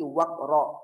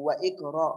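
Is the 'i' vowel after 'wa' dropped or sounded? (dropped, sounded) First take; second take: dropped; sounded. First: The words run together with no extra vowel. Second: A separate 'i' vowel is sounded after 'wa'. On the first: The speaker calls it right. "tetapi waqra" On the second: The speaker calls it wrong. "atau wa iqra, bukan"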